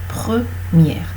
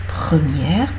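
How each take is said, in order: The two takes are said the same way.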